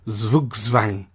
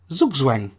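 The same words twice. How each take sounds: First: It is said with a German accent. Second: It is said with an English accent.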